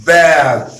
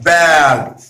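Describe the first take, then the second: First: The vowel sounds like air. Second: The vowel sounds like air.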